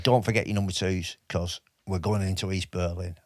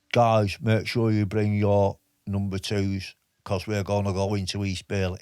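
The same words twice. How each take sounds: First: Said in the usual way. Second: A PTI giving orders to the lads in a shaky put-on Liverpool accent; Eric Martin in a bad Liverpool accent. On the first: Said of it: "He was a Londoner". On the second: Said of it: "a Liverpool accent".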